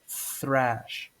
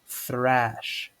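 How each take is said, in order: First: It begins with a breathy th sound. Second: The same.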